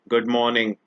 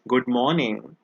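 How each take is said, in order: First: It is said in a rude, impolite tone. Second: It is said in a friendly, polite tone. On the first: The speaker calls it wrong. "My tone was not polite" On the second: The speaker calls it right. "which is a wonderful greeting"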